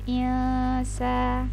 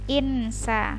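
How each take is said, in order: First: The n sound is muted and held briefly. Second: The n sound is pronounced fully and clearly. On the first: The speaker calls it right. "Jadi dia ditahan dulu insa begitu" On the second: The speaker calls it wrong. "Kalau misalnya disebut dengan jelas kan insa"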